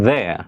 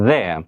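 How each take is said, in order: Both takes have the same delivery.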